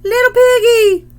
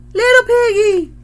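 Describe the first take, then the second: First: Shrill, much higher and louder parrot squawk. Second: High, loud parrot squawk repeated; the parrot echoing itself, high loud squawk. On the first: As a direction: screech it like a parrot. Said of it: "And the parrot squawks". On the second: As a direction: squawk it once more like the parrot. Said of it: "squawked the parrot". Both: A narrator's reading.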